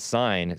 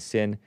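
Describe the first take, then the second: First: The vowel is long, like in 'sign'. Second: The vowel is short, like in 'sin'. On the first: The speaker had been saying it this way. "I was calling it Sign" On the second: Other people say it this way. "some people pronounce it Sin"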